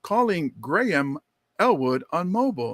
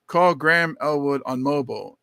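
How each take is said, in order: First: Measured assistant, "Graham" as GRAY-um; car computer voice. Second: "Graham" as one syllable, GRAM; casual pronunciation. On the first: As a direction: read back like a car's computer, evenly spaced. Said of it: "then she comes on". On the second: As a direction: give the voice command with "Graham" as GRAM. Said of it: "I'm like". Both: Retold or imitated.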